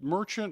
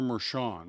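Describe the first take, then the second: First: The name has a 'ch' sound, English style. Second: The name has a 'sh' sound, French style. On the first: This is an anglicized pronunciation of the name. "I'm butchering you up with Merchant" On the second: This is a French-style pronunciation of the name. "the whole French thing"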